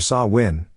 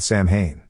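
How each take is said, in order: First: The middle is said with a W sound. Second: The middle is said with an M sound. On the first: This is the traditional Gaelic way. "correct Gaelic pronunciation" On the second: This is the spelling-based way. "the phonetic way of speaking the name"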